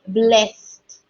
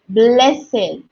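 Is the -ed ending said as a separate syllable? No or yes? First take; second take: no; yes. First: The -ed ending is not a separate syllable. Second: The -ed ending forms its own syllable. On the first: The speaker calls it wrong. "not blessed" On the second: The speaker calls it right. "So this word is blessed"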